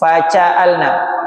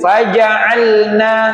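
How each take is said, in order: First: The j sounds soft and breathy, like ch. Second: The j is hard and voiced, without breath. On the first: The speaker calls it wrong. "Masih ada C. ... tapi bukan begitu" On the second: The speaker calls it right. "Dia punya sifat syiddah, keras. Dia punya sifat jahar, tidak keluar nafas"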